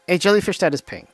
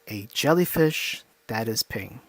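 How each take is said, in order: First: It is said in a regular speaking voice. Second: It is said lower, evenly paced and hypnotic.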